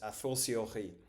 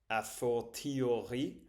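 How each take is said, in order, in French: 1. Le mot se prononce avec sa prononciation habituelle. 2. Le mot se prononce exactement comme il est écrit. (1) "mais il se prononce a fortiori" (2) "il s'écrit comme a fortiori"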